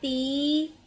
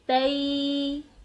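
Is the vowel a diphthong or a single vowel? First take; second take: single vowel; diphthong. First: The vowel is one plain i sound. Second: The vowel glides from a to i. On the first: The speaker calls it wrong. "इसे ती, सी, ली नहीं पढ़ेंगे" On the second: The speaker calls it right. "आवाज नीचे को जाते हुए निस्फ दायरा बनाएगी"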